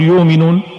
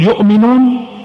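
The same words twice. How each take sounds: First: No glottal stop is heard after the first syllable. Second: A glottal stop is heard after the first syllable. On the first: "لا تهمز قريش" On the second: "قريش تقرأ الهمز"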